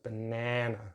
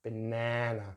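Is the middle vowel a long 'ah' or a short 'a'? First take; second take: short; short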